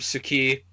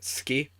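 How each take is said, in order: First: The vowel after the s is clearly pronounced. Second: The vowel after the s is dropped.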